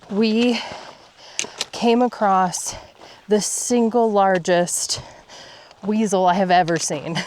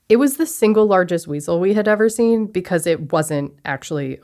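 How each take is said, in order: First: Breathless hushed whisper. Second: Said in the usual way. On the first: Real, not acted. Hushed awe at big animal.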